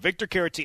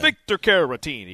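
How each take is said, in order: First: The name is said in a plain accent. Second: The name is said in an Italian-American accent.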